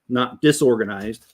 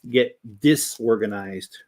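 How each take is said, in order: First: The first syllable sounds like plain 'dis'. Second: The first syllable sounds like 'this'. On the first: The speaker calls it wrong. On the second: The speaker calls it right.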